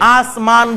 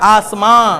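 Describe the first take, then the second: First: It ends with a clearly pronounced full n sound. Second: It ends in a nasalized vowel without a full n. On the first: "নুন হলে বলতাম আসমান" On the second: "নাকের ভিতরে চলে গেছে"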